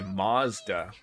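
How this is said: Mazda is said in the American way. "apparently Americans say Mazda"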